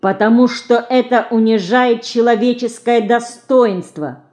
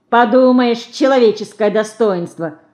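First: Higher, evenly recited words; reciting by heart. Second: Put-on scornful boy, louder first word; scoffing. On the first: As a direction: parrot mother's words by heart. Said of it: "наизусть повторила мамины слова". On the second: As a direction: throw her words back dismissively. Older boy scoffs at Dinka's words. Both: A narrator's reading.

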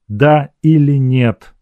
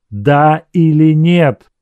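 First: Slow, pressed Да или нет; held-breath demand; pressed question. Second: Slower, higher, louder Да или нет, stress on нет; breathless insistent repeat; urgent repeat. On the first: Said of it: "повторил он". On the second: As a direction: demand it again, more urgently. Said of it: "прошептала". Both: A narrator's reading.

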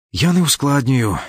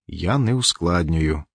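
First: Sharp, higher insistent no, stress on не; firm denial. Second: Slow, softer, weighted не after a pause; slow quiet repeat. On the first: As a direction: snap back, leaning on не. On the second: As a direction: say it again slowly, holding back hurt. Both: A narrator's reading. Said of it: "Катька прикусила губу і взяла коротку паузу".

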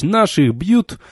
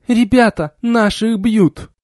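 First: Said in the usual way. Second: Bellowed rallying cry. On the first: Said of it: "знакомый им и родной по кабакам клич". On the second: A narrator's reading. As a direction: call the troops into the brawl. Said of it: "заорала".

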